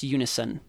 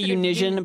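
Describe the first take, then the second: First: The middle is an 's' sound, 'YOO-nih-sun'. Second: The middle is a 'zh' sound, 'yoo-NIZH-un'. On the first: The speaker calls it right. "but it's actually pronounced unison" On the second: The speaker calls it wrong. "I say unision"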